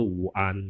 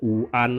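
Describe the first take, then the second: First: WUAN with a clear w glide; unneeded w reading. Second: WUAN starting on a pure u vowel; no w glide in WUAN; recommended reading. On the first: Teacher showing what is unnecessary, w pronounced. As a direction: lean on the w opening WUAN. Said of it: "Tidak perlu Wuan gitu ya". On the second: Teacher modelling the greeting, bare u. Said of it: "dibaca seperti Wuan gitu saja". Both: Shown as a demonstration.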